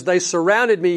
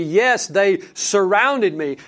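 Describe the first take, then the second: First: Said in the usual way. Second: Slow, with "surrounded" leaned on hard; emphasis on surrounded. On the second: Shown as a demonstration. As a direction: stretch it out and press "surrounded". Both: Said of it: "grammatical emphasis here".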